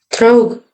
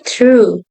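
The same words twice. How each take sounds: First: The ending is not a plain 'oo' vowel. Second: The ending is a plain 'oo' vowel. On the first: The speaker calls it wrong. "Bukan true" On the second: The speaker calls it right. "tapi true"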